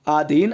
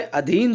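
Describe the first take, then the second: First: आधीन with a long opening aa; wrong form आधीन. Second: अधीन with a short opening a; correct form अधीन. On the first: Teacher showing the misspelling, आधीन with long aa. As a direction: stretch the first vowel of आधीन to aa. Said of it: "आधीन अशुद्ध है". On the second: Teacher giving the correct word, अधीन with short a. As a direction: keep the first vowel of अधीन short. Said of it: "अधीन शुद्ध है". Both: Shown as a demonstration.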